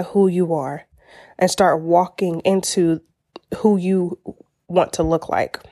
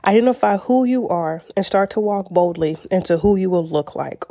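First: Halting delivery with pauses; halting stumble. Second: Said in the usual way. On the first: Real, not acted. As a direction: trip over the words haltingly. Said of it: "I don't know why I was stuttering with that". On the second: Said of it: "let me say it one more time".

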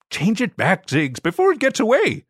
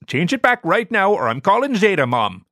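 First: Higher, firm alien command; firm but not yet angry; alien sibling order. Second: Higher and louder ultimatum; insistent threat. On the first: Zorg tells Ziggy to undo it, higher firm voice. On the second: Zorg threatens to call Zeta Mom, louder insistent demand. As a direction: put your foot down now. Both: Acted.

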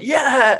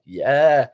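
First: High, mock-excited crowd yell; imitated crowd cheer. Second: Said in the usual way. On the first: Skinhead girls pointed out from stage, high imitated cheer. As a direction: cheer high, like thrilled fans. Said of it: "they were all like". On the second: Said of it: "I was like".

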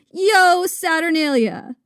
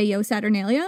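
First: Drawn-out, jolly festive cry; exuberant, super jolly. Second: Said in the usual way. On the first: Acted. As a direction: return the greeting with exuberance. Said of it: "equally exuberant and super jolly".

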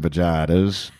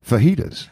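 First: "vaginas" as vuh-JAI-tuhz, with a hard English J; mispronounced fajitas. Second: "fajitas" as fuh-HEE-tuhz, with an H sound; correct pronunciation. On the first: Retold or imitated. Mother-in-law ordering fajitas, "vaginas" mispronounced as vuh-JAI-tuhz. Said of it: "she does not know to pronounce it". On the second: Shown as a demonstration. Explaining the mother-in-law's mistake, "fajitas" said fuh-HEE-tuhz. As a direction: say "fajitas" the Spanish way, J as H. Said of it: "to pronounce it".

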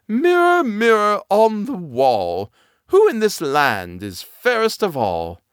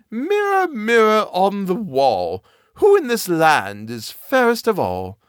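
First: High, slow queen calling her mirror; imperious queen, drawn out. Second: High, slow queen calling her mirror; commanding queen, drawn out. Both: Acted.

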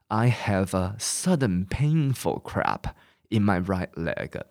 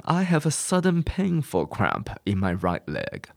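First: "I have a sudden painful cramp in my right leg" slowly, one word at a time. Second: Said in the usual way. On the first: Shown as a demonstration. Teacher reads the sentence word by word for class. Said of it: "一个字一个字来". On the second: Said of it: "你就可以讲".

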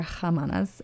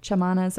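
First: "Jamanas" begun with an H sound; H pronunciation. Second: "Chamanas" begun with a CH sound; CH pronunciation. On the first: Host offering the other reading, "Jamanas" with an H. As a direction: say "Jamanas" with a Spanish j, like h. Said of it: "I think that's how you pronounce it". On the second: Host unsure of the band's name, "Chamanas" with a CH. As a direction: say "Chamanas" with ch as in church. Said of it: "C H". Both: Shown as a demonstration.

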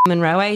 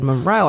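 First: "Monroe" said as mon-ROH-ay, with an extra final syllable; accent-mark pronunciation. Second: Said in the usual way. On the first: Shown as a demonstration. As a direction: add an "ay" to the end of "Monroe". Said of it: "Why are you saying it like that?". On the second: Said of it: "how do you want it?".

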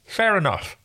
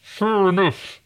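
First: Talking around a finger, high; garbled with a finger in the mouth. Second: Choked, strained, high voice; like someone being strangled. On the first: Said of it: "I can stick a finger in my mouth". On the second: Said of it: "now it sounds like the person who is about to be murdered". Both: Pretend.

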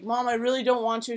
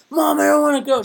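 First: Said in the usual way. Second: Higher, louder whiny protest; loud teen whine. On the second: Retold or imitated. Teen refusing mom's early brunch, in a loud whiny protest. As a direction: complain loudly like a tired thirteen-year-old.

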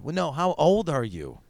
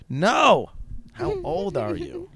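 First: Slowed, mildly pressing mock question; acted interviewer stressing each word slowly; insistent question. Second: Loud, high "no", then slow high question; hammed-up exasperation, stretching the question out; exasperated demand. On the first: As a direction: press politely for a straight answer. Acted casting exchange, first asking. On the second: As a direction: demand a straight answer, pitched way up. Acted exchange, exasperated repeated demand.

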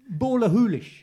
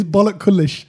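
First: Ballachulish said "bawla-HOO-lish"; correct pronunciation. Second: Ballachulish said "BOLLOCK-ullish"; mispronounced guess. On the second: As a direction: say Bollock Kullish with a hard k, amused. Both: Shown as a demonstration. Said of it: "It's actually".

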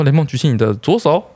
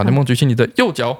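First: 左 picked out, with a rising end; stress on 左. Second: 右 picked out, with a falling end; stress on 右. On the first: Testing the kid's left and right, stress on 左 and rising. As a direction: test the child, leaning on 左. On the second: Testing the kid's left and right, stress on 右 and falling. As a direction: test the child, leaning on 右. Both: Retold or imitated. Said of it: "会认左手跟右手".

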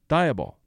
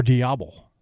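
First: Diable said as "DYE-uh-bul", English-style; anglicised Diable; first try at Diable. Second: Diable said as "dee-AH-bl", French-style; corrected Diable. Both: Shown as a demonstration.

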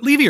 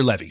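First: "Levy" with a long ee in the first syllable. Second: "Levy" with a short e, rhyming with heavy. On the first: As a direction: say "Levy" as LEE-vee. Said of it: "I've said it both ways now". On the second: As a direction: say "Levy" as LEV-ee. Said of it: "I feel like I'm saying both". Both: Shown as a demonstration.

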